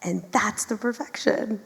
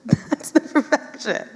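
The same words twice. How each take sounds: First: Said in the usual way. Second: Repeated through a real laugh. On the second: Real, not acted. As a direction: say it again while laughing.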